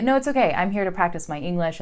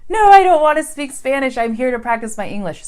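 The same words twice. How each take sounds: First: Polite refusal. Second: Loud, high frustrated outburst; frustrated protest. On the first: Shown as a demonstration. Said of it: "stick with English and say". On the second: Retold or imitated. Learner refusing to be spoken to in Spanish, loud frustrated protest. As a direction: push back loudly, annoyed. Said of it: "you might get frustrated and go".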